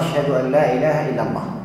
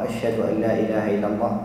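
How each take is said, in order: First: The phrase is said in a raised, loud voice. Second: The phrase is said in a low, quiet voice. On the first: It is announced to everyone like the rest of the call. "ثم يرجع فيقولها بصوت مرتفع" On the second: Only those close by can hear it. "بصوت منخفض"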